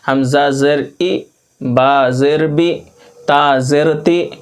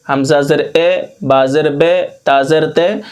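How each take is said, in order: First: The vowels are said as a high 'ee' sound. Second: The vowels are said as a mid 'e' sound. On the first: The speaker calls it right. "बल्कि हमें मारूफ पढ़ना है" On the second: The speaker calls it wrong. "ऐसे बिल्कुल नहीं पढ़ना है"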